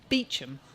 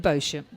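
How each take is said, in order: First: The name is pronounced the English way, Beecham. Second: The name is pronounced in a non-English way. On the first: The speaker calls it right. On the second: The speaker calls it wrong.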